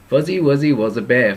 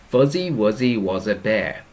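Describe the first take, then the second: First: It is said fast. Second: It is said slowly.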